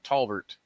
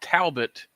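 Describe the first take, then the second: First: The second part is said as 'bert'. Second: The second part is said as 'bot'. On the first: "most people from here call it Talbert" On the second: "there's a place called Talbot"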